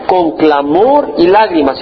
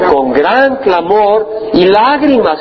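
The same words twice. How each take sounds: First: Said in the usual way. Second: Slow, leaning hard on "gran" in "Con gran clamor y lágrimas"; weighted, slow "Con gran clamor" with "gran" stressed. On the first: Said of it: "dice con qué?". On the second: Shown as a demonstration. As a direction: drag out "gran clamor" slowly so the word "gran" lands. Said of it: "Y no dice con clamor".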